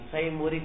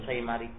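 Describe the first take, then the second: First: The vowel after the m is u. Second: The vowel after the m is a. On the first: "Yajuz bizammi mim" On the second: "wa fathiha"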